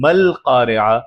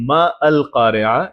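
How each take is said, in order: First: The 'a' of 'al' is dropped and linked. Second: The 'a' of 'al' is pronounced separately. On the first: The speaker calls it right. "बीच में अगली आयत में आया तो मल कारिआ" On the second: The speaker calls it wrong. "अब हम मा अल कारिआ नहीं बोल रहे"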